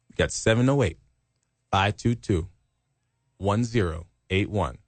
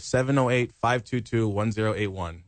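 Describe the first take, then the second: First: The number is said more slowly. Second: The number is said at normal speed.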